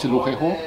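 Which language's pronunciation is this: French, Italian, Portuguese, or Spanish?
French. The name is said with French pronunciation.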